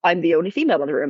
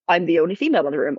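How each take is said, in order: First: It is said in a deflated, negative tone. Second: The same.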